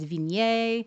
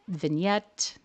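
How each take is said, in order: First: The final t sound is left silent. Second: The final t sound is clearly pronounced. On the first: "if you were to say it in the French way" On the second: "We pronounce that T in English"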